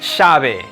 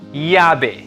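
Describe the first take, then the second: First: The ll sounds like English sh. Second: The ll sounds like English y. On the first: "The third variation is the sh sound" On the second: "The double L most often sounds like Y, or like the Y in the English word yellow"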